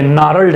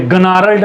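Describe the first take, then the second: First: Gnarled with a silent G, said narled; gnarled said narled, G mute; correct pronunciation. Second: Gnarled said with the G sounded, guh-narled; gnarled with an audible hard G at the start; wrong pronunciation. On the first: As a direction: drop the G in gnarled and start on the n. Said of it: "ये gnarled है". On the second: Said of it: "ये gnarled नहीं है". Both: Shown as a demonstration.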